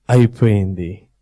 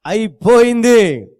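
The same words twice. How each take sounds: First: Low, murmured అయిపోయింది as a private thought; low gloat. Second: అయిపోయింది high, louder and slow, stretched out; exultant gloat. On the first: Satan thinking at the cross, low murmured gloat. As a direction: mutter అయిపోయింది low to yourself. First take of Satan's line. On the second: Satan crowing over the cross, slow high triumph. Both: Acted.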